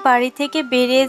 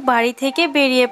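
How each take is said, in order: Both takes have the same delivery.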